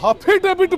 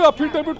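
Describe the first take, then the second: First: The word begins with an added h sound. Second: The word begins directly with a vowel sound. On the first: This mocks how someone else says the word. The speaker calls it wrong. "हफीडेविट बोलते हैं" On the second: This is the proper form of the word. The speaker calls it right. "अफिडेविट को"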